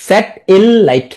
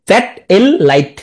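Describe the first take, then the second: No difference in how they are said.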